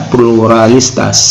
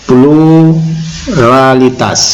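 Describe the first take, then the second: First: Said in the usual way. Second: PLURALITAS very slow, split after a long first syllable; drawn-out PLURALITAS. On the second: Shown as a demonstration. Preacher teaching listeners a term, PLURALITAS slowly drawn out. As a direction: stretch out "pluralitas" part by part.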